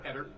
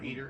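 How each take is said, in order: First: The name starts with an 'eh' vowel. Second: The name starts with an 'ee' vowel. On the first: "not Joe Eder" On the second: "or Eater"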